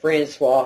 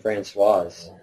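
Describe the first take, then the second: First: The name ends on a vowel sound. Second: The name ends with a 'z' sound. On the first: The speaker calls it wrong. "she said [name]" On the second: The speaker calls it right. "which I think is the proper pronunciation"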